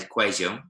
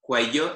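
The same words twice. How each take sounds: First: The double L sounds like a soft j. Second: The double L sounds like y. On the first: This is how people in Medellin say it. "in Medellin, they kind of make a bit of a J kind of noise" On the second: This is the standard way for the learners. "for us, cuello is just fine"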